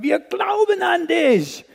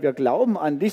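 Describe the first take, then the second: First: It is said with lively, excited energy. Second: It is said plainly, with little energy. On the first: The belief is held with great excitement. "wir haben Begeisterung" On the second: The belief is stated casually. "nicht einfach nur so gesungen"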